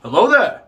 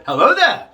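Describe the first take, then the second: First: Understated, gentler greeting in a veteran actor's manner; Alec Guinness. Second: Higher, punched-up catchphrase greeting; meme catchphrase delivery. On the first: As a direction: greet simply, without playing up the catchphrase. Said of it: "He says it in the Alec Guinness way". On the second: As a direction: ham it up like a famous meme line. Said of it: "in the whole meme-alicious way". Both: Retold or imitated.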